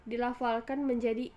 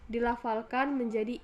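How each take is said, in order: No difference in how they are said.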